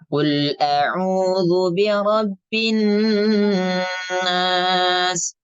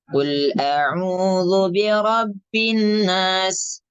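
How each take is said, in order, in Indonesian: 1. Huruf n ganda ditahan dengan dengung nasal. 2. Huruf n ganda tidak ada dengung nasal yang ditahan. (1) "nunnya digunakan terlebih dahulu" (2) "Tidak tidak kita baca seperti ini. ... Jadi tidak ada gunahnya"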